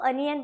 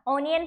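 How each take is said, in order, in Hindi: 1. पहला स्वर छोटा 'uh' ध्वनि है। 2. पहला स्वर खुला 'aw' ध्वनि है। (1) "उसको अनियन पढ़ना है" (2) "बिल्कुल गलत है"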